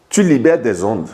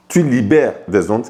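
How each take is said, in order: Both takes have the same delivery.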